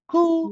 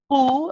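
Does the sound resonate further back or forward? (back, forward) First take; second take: forward; back. First: The sound is pushed forward out of the mouth. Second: The sound is pulled back in the mouth. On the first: The speaker calls it right. "push forward" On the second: The speaker calls it wrong. "going backwards"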